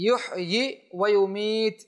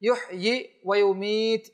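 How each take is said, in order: Both takes have the same delivery.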